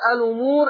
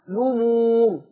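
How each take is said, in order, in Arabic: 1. تبدأ الكلمة بهمزة ثم حركة. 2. تبدأ الكلمة مباشرة بالصوت l. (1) "هنطقها بهمزة الوصل" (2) "يشيل الهمزة وابدأ بالحرف المتحرك"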